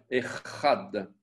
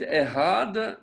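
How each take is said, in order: First: The consonant is a rough guttural throat sound. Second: The consonant is a soft, plain h sound. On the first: The speaker calls it right. "il faut bien prononcer le guttural" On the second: The speaker calls it wrong. "Si vous dites Ehad, c'est comme si c'était la lettre He"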